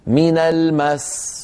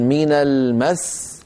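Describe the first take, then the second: First: من المس with no push on the final seen of المس; wrong unstressed stop. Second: من المس slowly, pressing into the final seen of المس; stress on stopping. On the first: Teacher warns students against stopping on المس this way, unstressed. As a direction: let المس end loosely on a single s. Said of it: "لا نقول من المس". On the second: Teacher shows students the correct stop on المس, stressed. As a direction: punch المس slightly and stop on its s. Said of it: "لكن لما نقف نقول من المس هكذا". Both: Shown as a demonstration.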